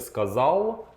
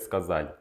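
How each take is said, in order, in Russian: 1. Конечный Л твёрдый. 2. Конечный Л мягкий.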